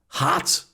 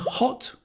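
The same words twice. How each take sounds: First: It is said in an American accent. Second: It is said in an English accent.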